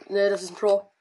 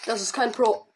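First: Pro lifted with a rising tune; correcting to ein Pro. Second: Kein said with a falling stress. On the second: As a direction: lean on kein, not a pro. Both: Real, not acted.

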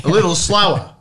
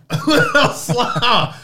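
First: Said in the usual way. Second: SLOWER stretched out high, through laughter; drawn-out slower. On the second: Acted. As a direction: drag out the word slower for comic effect. Repeats it slower as a joke.

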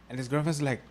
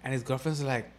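No difference in how they are said.

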